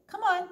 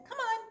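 First: High, loud coaxing call; calling a dog. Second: Very high coaxing call. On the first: Opal calls the stray dog to her, loud coaxing. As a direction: urge the dog to come. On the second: Opal coaxes the dog a second time, high call. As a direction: coax the dog over. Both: Acted.

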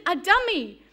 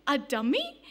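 First: Said in the usual way. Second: "A dummy?" asked with a rising, puzzled tune; puzzled question. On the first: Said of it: "And I said". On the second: Retold or imitated. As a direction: echo "dummy" back as a baffled question. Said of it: "and she says".

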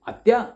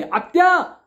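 First: A loud call, pitched up; shouting for aunt. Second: Full-force yell, much higher and louder; very loud shout. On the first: Nephew calling his silent aunt down the phone, shouting. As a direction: call her name out loud to break the silence. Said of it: "ओरडलो". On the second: Nephew yelling at his aunt on the phone, all-out shout. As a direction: bellow the name as loud as you can. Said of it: "आणि एकदम मोठ्याने". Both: Retold or imitated.

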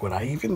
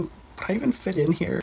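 First: Said in the usual way. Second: "would I even fit in here?" rising much higher in self-doubt; doubtful question. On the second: Retold or imitated. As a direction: squeak the question up high, unsure of himself. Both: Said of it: "And I told them".

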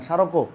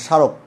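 First: স্মারকও as sharoko; added final vowel. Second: স্মারক cut off on k; silent final vowel. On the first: Teacher repeating the unused form, স্মারকও ending in o. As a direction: sound the o after k in স্মারকও. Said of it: "বলি না". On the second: Teacher showing the vowel is blocked, স্মারক ending on k. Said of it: "আটকে দিয়েছি স্বরের উচ্চারণ". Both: Shown as a demonstration.

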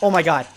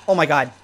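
No difference in how they are said.

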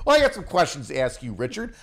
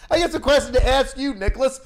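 First: Said in the usual way. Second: Mocking squeaky echo of the line, pitch way up; mocking high copy. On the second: Shown as a demonstration. Mocking his friend's line back at him in a squeaky voice.

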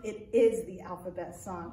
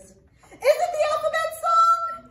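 First: Said in the usual way. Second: High, loud puppet asking eagerly; squeaky puppet voice. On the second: Acted. Puppet Arturo asks the librarian about the song, high puppet voice. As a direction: pitch way up as a curious monkey puppet.

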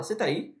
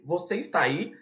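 First: "você tá aí" squashed into "cê taí"; colloquial joined form. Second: "você está aí" with every word whole; textbook form. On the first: Teacher showing how locals say it, "cê taí" joined. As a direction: run "você tá aí" together, softly. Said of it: "a gente aqui fala". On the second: Teacher quoting what learners hear, "você está aí" in full. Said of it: "Lá nos livros". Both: Shown as a demonstration.

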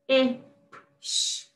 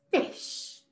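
First: "Ish" split into short i, then sh; "Ish" segmented for phonics; sound talk. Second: Said in the usual way. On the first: Shown as a demonstration. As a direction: sound out "Ish" with a gap before the sh. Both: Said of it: "sound talk the words".

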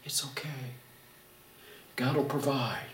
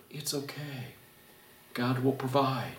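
First: Very soft, hushed calming; calm voice of reason. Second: Very soft, hushed calming; reassuring. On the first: Wife calming her panicking husband, soft and calm. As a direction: hush a panicking husband gently. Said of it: "the calm voice of reason". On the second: Husband reminding his panicking wife, hushed and calm. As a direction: soothe her quietly. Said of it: "remind her". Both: Retold or imitated.

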